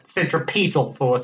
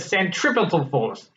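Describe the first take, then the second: First: Centripetal is said the England way. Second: Centripetal is said the non-England way.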